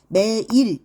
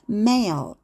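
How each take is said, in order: First: The word ends in an ee sound. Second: The word ends in an L sound. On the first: The speaker calls it wrong. "매일 이렇게 하지 말고요" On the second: The speaker calls it right. "mail 이렇게 해서 끝을 올려주세요"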